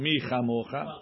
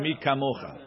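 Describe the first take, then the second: First: The second word starts with a soft ch sound. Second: The second word starts with a hard k sound. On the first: "Hakaf refuya" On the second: "The kaf has a dagesh"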